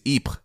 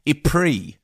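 First: It is said with a French pronunciation. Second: It is said with a British English pronunciation. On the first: "The French pronunciation is" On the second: "a beautiful British mangling of French that no French person would understand"

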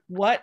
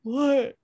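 First: It sounds confused, not yet registering. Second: It sounds dismayed, with a gasp.

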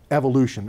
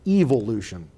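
First: It is said with an American pronunciation. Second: It is said with a British pronunciation.

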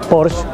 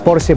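First: The final E is silent, ending on sh. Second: The final E is pronounced as a syllable. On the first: This is the English way. The speaker calls it wrong. "eso sería como lo dicen en inglés" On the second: This is the original German way. The speaker calls it right. "en alemán termina con S y pronuncia la E"

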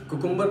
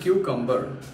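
First: The word begins with a plain 'koo' sound. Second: The word begins with a 'kyoo' sound. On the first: The speaker calls it wrong. "उसे कुकुम्बर ना बोल के" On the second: The speaker calls it right. "हम बोलना चाहिए क्यूकम्बर"

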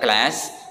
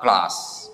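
First: It is said with an American accent. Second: It is said with a British accent. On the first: "Kalau di American English ini dibaca class" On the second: "kalau di British English ini dibaca class"

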